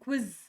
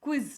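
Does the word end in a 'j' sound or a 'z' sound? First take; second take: z sound; z sound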